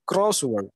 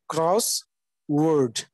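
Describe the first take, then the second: First: Only the first part carries stress. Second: Both parts carry their own stress. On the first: "so likewise"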